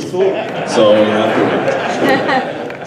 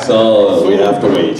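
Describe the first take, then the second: First: Very slow, patient wait; slow, drawn out. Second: Said in the usual way. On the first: Shown as a demonstration. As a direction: stretch every word out slowly. Repeats phrase slowly for effect.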